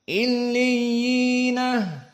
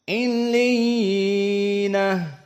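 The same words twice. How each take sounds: First: The long vowel is held for two counts. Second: The long vowel is held for four counts. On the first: "dua harokat" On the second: "empat harokat"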